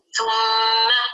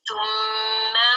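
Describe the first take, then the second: First: Said in the usual way. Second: Thumma with the final a stretched too long; overlong vowel. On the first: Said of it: "They say it how?". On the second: Shown as a demonstration. Teacher demonstrating the wrong long vowel in Thumma. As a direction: drag the ending of Thumma out past a short fatha. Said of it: "It's not complete alif, but it's more than should".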